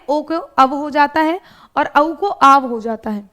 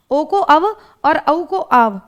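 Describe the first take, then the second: First: Said in the usual way. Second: Slowly, word by word, for dictation; slow it down so students can note it; slow repeat. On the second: Shown as a demonstration. Teacher repeats the rule for students, slowly and deliberately.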